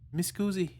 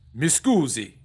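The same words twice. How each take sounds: First: It is said quietly, without force. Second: It is said loudly, in a booming voice.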